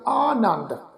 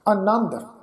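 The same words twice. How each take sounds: First: The first vowel is long. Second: The first vowel is short. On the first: "ਐੜੇ ਨੂੰ ਕੰਨਾ ਲੱਗਾ ਹੋਇਆ" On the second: "ਐੜਾ ਨੰਨੇ ਦੇ ਉੱਪਰ ਟਿੱਪੀ ਦੀ ਮਾਤਰਾ, ਫਿਰ ਦੱਦਾ ਅੱਖਰ"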